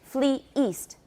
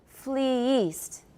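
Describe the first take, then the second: First: A glottal stop separates the two words. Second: The words join smoothly with no glottal stop. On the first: "usually we'll put a glottal stop in there to separate the two syllables" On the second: "without the glottal stop, but still with two syllables"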